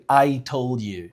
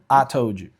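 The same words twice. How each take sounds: First: The vowel of I is a gliding diphthong. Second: The vowel of I is a flat 'ah'. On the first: This is not how the speaker's community says it. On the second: This is how the speaker's community says it.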